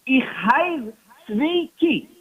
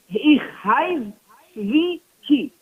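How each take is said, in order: First: Put-on slow, deliberate Yiddish-accented "Ich heiz zwei ki"; Yiddish phrase. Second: Slow, drawn-out "Ich heiz zwei ki" in Yiddish; Yiddish phrase. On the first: Rabbi answers the nosy man, slow Yiddish. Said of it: "he says in Yiddish". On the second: Retold or imitated. Preacher repeats the rabbi's answer, slow Yiddish. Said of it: "He says".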